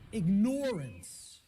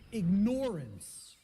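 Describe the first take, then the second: First: It is said so 'ignore' is clearly heard. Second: The same.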